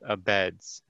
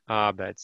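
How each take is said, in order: First: The stress is on the second syllable. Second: The stress is on the first syllable. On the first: The speaker calls it wrong. "not Abeds" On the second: The speaker calls it right. "Emphasis on the A"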